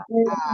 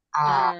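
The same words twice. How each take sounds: First: A cut off at the bottom of the dip; broken dipping tone. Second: A falls and rises straight on without a break; continuous dipping tone. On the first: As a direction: break A before it rises. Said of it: "tapi jangan diputus di bawah". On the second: Teacher showing the correct third tone, unbroken dipping A. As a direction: glide A down and up in one go. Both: Shown as a demonstration.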